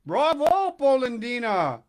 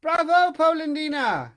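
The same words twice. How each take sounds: First: Loud, high exclaim in the wrong voice; the mixed-up voice take; wrong character voice. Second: High, loud teasing cry from the log; the hidden voice mocks him, shrill and loud; the tiny voice jeers from inside the wood; little voice, corrected. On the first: Acted. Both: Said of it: "I got the voices mixed up".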